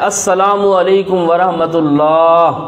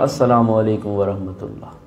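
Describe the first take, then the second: First: It is said in a loud, raised voice. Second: It is said in a soft, lowered voice. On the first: "पहला सलाम ये बुलंद आवाज़ से होता है" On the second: "दूसरा आहिस्ता होना चाहिए"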